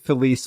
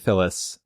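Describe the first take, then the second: First: The name is pronounced like 'Felice'. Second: The name is pronounced like 'Phyllis'. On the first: The speaker calls it right. "I like Felice more than Phyllis" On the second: The speaker calls it wrong. "I like Felice more than Phyllis"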